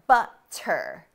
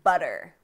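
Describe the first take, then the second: First: The middle t is a crisp T sound. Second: The middle t sounds like a quick D. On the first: The speaker calls it wrong. "we do not say ... butter" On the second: The speaker calls it right. "Americans say ... and butter"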